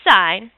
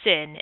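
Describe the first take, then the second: First: The word rhymes with pine. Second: The word rhymes with pin. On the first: The speaker calls it right. "You say sine" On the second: The speaker calls it wrong. "You do not say sin in math class"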